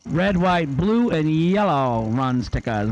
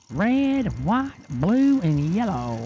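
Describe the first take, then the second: First: Said in the usual way. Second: Twangy Alvin call. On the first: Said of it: "as Caden would say for Alvin". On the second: Retold or imitated. Announcer doing nephew's twangy Alvin impression, pitched up. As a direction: put the twang in it and sing the colors out high. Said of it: "He puts the twang in it".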